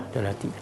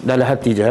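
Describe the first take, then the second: First: Much softer, almost to oneself, as if kept in the heart; said under the breath. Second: Said in the usual way. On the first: Shown as a demonstration. Teacher shows students how to keep it inside, very soft. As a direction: drop the voice to show words kept inside. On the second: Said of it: "Tapi jangan sebut".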